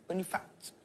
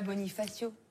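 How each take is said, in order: First: The name is said with its final vowel dropped. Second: The name is said with its final vowel. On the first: The speaker calls it right. "il faut pas prononcer la fin des mots" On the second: The speaker calls it wrong. "Tu dis pas Bonifacio"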